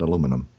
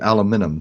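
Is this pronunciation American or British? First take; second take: American; British. First: It is said the American way. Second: It is said the British way. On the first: "not aluminum" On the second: "They they pronounce it aluminum too"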